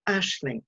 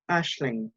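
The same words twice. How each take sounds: First: Lightly voiced posh mum naming her daughter. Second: Lightly voiced man, lower and softer; man's voice. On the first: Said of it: "higher than usual and sort of posh". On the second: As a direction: repeat the name low and quiet. Man repeats the girl's name. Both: A narrator's reading.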